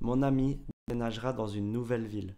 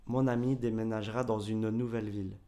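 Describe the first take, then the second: First: The final e of 'une' is silent. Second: The final e of 'une' is pronounced. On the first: The speaker calls it right. "quand je parle, je dis" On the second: The speaker calls it wrong. "et pas"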